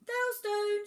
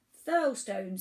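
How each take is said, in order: First: Very high, loud squeal; tiny island piping up high; third island's voice. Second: Loud rumbling island voice; deep rumbly voice. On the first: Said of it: "said a third in a voice". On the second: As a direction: boom it out like a huge island. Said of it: "in a deep rumbly voice". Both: A narrator's reading.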